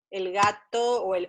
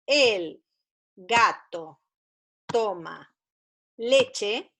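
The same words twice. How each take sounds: First: Said in the usual way. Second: "El gato toma leche" with pauses between the words, each word set apart; teacher reading a first sentence aloud for children, in slow dictation. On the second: Shown as a demonstration. Word by word, like reading to a beginner. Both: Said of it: "como por ejemplo".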